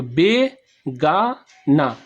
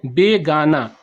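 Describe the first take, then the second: First: Slow, each syllable split apart with gaps; broken into syllables. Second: Said in the usual way. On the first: Shown as a demonstration. Teacher splitting the word into syllables for students, slow and separated. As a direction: chop the word into its three syllables, very slowly. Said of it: "तीन भाग में तोड़ सकते हैं". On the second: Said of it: "तो बे गा, ना".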